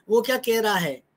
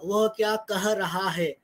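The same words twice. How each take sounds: First: "वो क्या कह रहा है?" with "कह" said as a quick "के"; casual spoken form. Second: "वह क्या कह रहा है?" slow, with "वह" and "कह" fully sounded; careful written form. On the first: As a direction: say "कह" the fast everyday way, as "के". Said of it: "अब मैं बोल तो कह रहा हूँ". (बोलचाल वाला "के", "कह" को जल्दी में "के" बोलें) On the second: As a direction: spell out "कह" with its h, slowly and carefully. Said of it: "लेकिन लिखूंगा तो कह". (लिखित रूप जैसा धीमा, साफ़ "वह" और "कह") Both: Shown as a demonstration.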